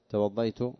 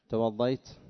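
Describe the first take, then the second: No difference in how they are said.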